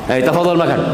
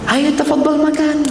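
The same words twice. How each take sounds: First: It is said in a curt, disrespectful tone. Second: It is said in a warm, respectful tone. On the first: The speaker does not honour the listener. The speaker calls it wrong. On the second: The speaker honours the listener. The speaker calls it right.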